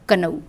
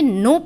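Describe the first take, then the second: First: A k sound is pronounced at the start. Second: The k is silent at the start. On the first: The speaker calls it wrong. "बड़ी मेहनत करके मैंने बच्चों को पढ़ाया कनऊ" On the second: The speaker calls it right. "इसमें के silent है, ये नो पढ़ा जाता है"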